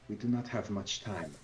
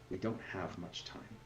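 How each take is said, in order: First: It is said in a put-on character voice. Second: It is said in the speaker's own natural voice.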